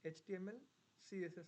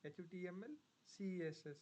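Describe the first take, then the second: First: The letters are run together quickly. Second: The letters are spelled out slowly. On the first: The speaker calls it right. "ನಾನು ಎಷ್ಟು quick ಆಗಿ" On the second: The speaker calls it wrong. "ನೀವು ... ಅಂತೀರಾ"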